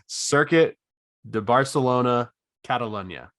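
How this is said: It is said in an American accent. "do I say this in my American accent"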